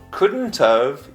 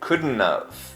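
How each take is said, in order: First: The t in couldn't is pronounced. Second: The t in couldn't is dropped.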